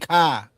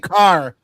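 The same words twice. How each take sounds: First: It is said Boston-style with the r dropped. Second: It is said with the r sound pronounced.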